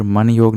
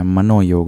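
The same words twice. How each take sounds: First: मन योग with "man" ending on n; no "o" between मन and योग; wrong form. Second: मनोयोग with "mano" before "yog"; correct form. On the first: Teacher rejecting the wrong word, मन योग without a linking o. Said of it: "नहीं होता है". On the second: Teacher correcting students, मनोयोग with a clear "no". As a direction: link मनोयोग with an o vowel. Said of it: "मनोयोग होता है". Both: Shown as a demonstration.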